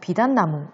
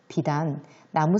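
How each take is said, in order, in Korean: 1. 두 단어가 쉬지 않고 이어져 있어요. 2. 비단 뒤에 쉼이 있어요. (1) "연결해서 비단나무 이렇게 읽은 친구들이 많았는데" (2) "선생님이 비단 뒷부분을 끊어 읽었어요"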